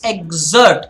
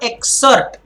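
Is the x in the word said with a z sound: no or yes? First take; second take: yes; no. First: The x is said with a z sound. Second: The x is said without a z sound. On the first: The speaker calls it right. "it's exert, the Z sound" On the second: The speaker calls it wrong. "It's not exert"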